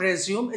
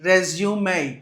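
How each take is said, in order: First: The word ends on a plain m sound. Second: The word ends with an added 'ay' vowel. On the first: The speaker calls it wrong. "It's not రెజ్యూమ్" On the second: The speaker calls it right. "It's a రెజ్యూమే"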